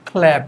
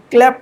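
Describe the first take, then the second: First: ক্ল্যাপ with aspirated kh and slightly stretched vowel; corrected pronunciation. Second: ক্ল্যাপ with hard unaspirated k, short vowel; mistaken pronunciation. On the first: Teacher shows the correction, ক্ল্যাপ aspirated with a slight pull. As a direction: puff the k in ক্ল্যাপ, stretch lightly, fall. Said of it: "খয়ের পরে হালকা একটু টান". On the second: Teacher rejects this form, ক্ল্যাপ short and unaspirated. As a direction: say ক্ল্যাপ short, no breath after the k. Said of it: "এখানে তো ক্ল্যাপ না". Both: Shown as a demonstration.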